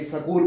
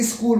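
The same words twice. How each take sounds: First: स्कूल said as sa-kool, a short a between s and k; school with an extra vowel. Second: स्कूल said with s and k run together, one syllable; tight cluster school. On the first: Teacher showing his students how some people say स्कूल as sa-kool. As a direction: break स्कूल into two syllables, sa-kool. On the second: Teacher showing his students the clustered स्कूल, said as one tight syllable. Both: Shown as a demonstration. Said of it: "कई स्कूल बोलते हैं".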